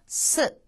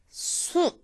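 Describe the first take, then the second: First: The vowel is said with relaxed, unrounded lips. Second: The vowel is said with lips pushed forward. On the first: The speaker calls it right. "자연스럽게 발음을 하시면 됩니다" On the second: The speaker calls it wrong. "입을 쭉 앞으로 내지 마시고요"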